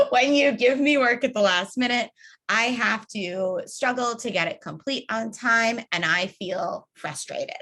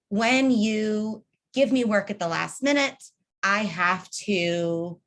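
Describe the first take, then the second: First: A confident model line ending on a falling period; firm example statement. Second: Said in the usual way. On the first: Shown as a demonstration. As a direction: state it plainly and assertively, full stop. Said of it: "the example I've given for years". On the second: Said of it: "it's when action, I have to reaction".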